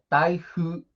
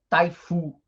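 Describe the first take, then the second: First: The f is a soft, breathy blown sound. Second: The f is a hard, plain f sound. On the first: The speaker calls it right. "é taihu" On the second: The speaker calls it wrong.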